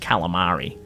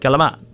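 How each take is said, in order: First: It is said with a standard American pronunciation. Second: It is said with an Italian-American pronunciation. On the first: This is the ordinary way most people say it. The speaker calls it wrong. "nobody says calamari" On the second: This is how people from an Italian family say it. The speaker calls it right. "They're like calamari"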